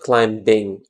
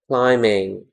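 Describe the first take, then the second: First: The b sound is pronounced. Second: The b sound is silent. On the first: The speaker calls it wrong. "not climbing" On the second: The speaker calls it right. "We write B, but we don't say it"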